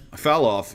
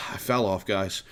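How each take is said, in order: First: Said in the usual way. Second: Sighing, softer, mock dejected; mock self-pity with a sigh; mock sulk. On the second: Shown as a demonstration. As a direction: sigh it out like a hammed-up loser.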